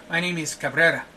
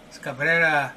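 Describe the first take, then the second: First: Said in the usual way. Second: Cabrera said the Spanish way, open KAH with a tapped r; Spanish pronunciation of a name. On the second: Shown as a demonstration. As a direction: correct Cabrera to Spanish sounds, KAH-breh-rah.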